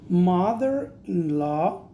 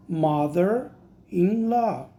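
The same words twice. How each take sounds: First: Slow careful "Mother-in-law"; slow model word. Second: Very slow "Mother-in-law", falling at the end; slower repeat. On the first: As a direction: draw out "Mother-in-law" syllable by syllable. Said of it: "teacher models the word". (pronúncia pausada de "Mother-in-law") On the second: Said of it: "teacher repeats slower". (repetição bem lenta de "Mother-in-law") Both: Shown as a demonstration.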